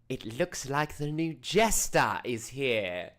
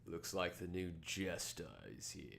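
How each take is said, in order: First: It is said in a distinct put-on character voice. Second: It is said without the character's distinct voice. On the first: The speaker calls it right. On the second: The speaker calls it wrong.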